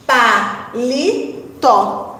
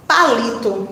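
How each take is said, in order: First: "palito" very slow, split into pa, li, to; a pause after each syllable of "palito". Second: Said in the usual way. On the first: Shown as a demonstration. Teacher analysing "palito" with pupils, slowly syllable by syllable. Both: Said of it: "Vamos analisar sílaba a sílaba".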